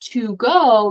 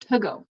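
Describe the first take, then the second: First: The word 'to' has a full 'oo' vowel. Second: The word 'to' has a reduced 'uh' vowel. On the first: The speaker calls it wrong. "instead of saying" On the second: The speaker calls it right. "It's kind of like an uh sound"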